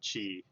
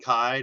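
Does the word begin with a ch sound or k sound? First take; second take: ch; k. First: The word begins with a ch sound. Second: The word begins with a k sound. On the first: The speaker calls it wrong. "not Zaya and Chi. I was way off" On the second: The speaker calls it right. "so Zaya and Kai"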